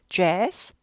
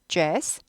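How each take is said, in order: The two takes are said the same way.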